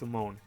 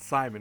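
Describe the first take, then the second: First: The last syllable sounds like 'moan'. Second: The last syllable sounds like 'mun'. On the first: The speaker calls it right. "It's Simone" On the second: The speaker calls it wrong. "It's not pronounced like some people pronounce it Simon"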